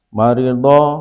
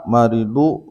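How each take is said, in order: First: The final vowel is an a sound. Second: The final vowel is not an a sound. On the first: The speaker calls it right. "awal dan akhir madi tiga huruf mujarrad maklum dibaca fathah" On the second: The speaker calls it wrong. "Tidak dibaca"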